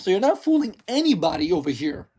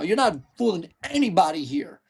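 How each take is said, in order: First: It is said in a normal voice. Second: It is said in a deep, guttural voice.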